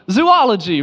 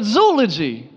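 First: "Zoology" dengan zu-O-logi; Zoology with an extra O sound, zoo-ology; common way. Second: "zoology" as zoh-ology, no extra O; correct way. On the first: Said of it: "Everybody says zoology". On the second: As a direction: say "zoology" with one O sound. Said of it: "You're supposed to say this word". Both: Shown as a demonstration.

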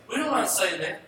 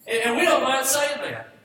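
First: Said in the usual way. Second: High, loud preacher's proclamation; shouted declaration. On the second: Acted. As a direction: belt it out to the congregation. Preacher repeats line for emphasis.

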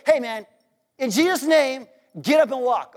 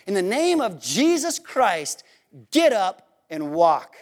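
First: Brisk, casual mock command; offhand command. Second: Slow, deliberate command, dropping low on GET UP; solemn command. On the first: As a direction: toss it off in one quick run. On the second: Acted. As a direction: command it slowly, with weight and pauses. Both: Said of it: "he doesn't just say".

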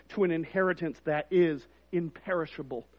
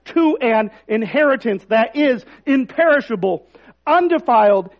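First: Quiet, hushed read of "to an inheritance that is imperishable"; soft reading. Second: Louder proclaiming of "to an inheritance that is imperishable"; emphatic rereading. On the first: Pastor first reads the verse to the congregation, soft. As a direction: say "to an inheritance that is imperishable" softly, held back. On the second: Pastor rereads the verse to the congregation, proclaiming it. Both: Shown as a demonstration. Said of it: "I want to read that again".

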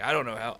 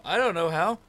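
First: Said in the usual way. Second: "I don't know how" higher and louder, pushing "don't"; insistent repeat. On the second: Retold or imitated. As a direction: press harder on "don't" the second time. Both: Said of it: "repeated with rising emphasis".

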